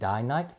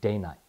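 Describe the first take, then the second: First: The first syllable rhymes with 'eye'. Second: The first syllable rhymes with 'say'. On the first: "Some people can pronounce it die-night" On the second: "They came up with that name because their mills or factories ran day and night"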